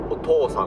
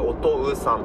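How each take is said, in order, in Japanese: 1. 真ん中は一つの長い「お」を言う。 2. 真ん中は「お」の後に「う」を言う。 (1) "お父さんと読みますよね" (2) "お父さんって書くけど"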